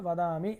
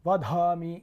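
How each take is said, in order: First: The middle consonant is plain, without any aspiration. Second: The middle consonant is pressed with a breathy aspiration. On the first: It means speaking in praise. The speaker calls it right. "సరళంగా రావాలన్నమాట" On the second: It comes to mean killing. The speaker calls it wrong. "అట్లా నొక్కుతారు"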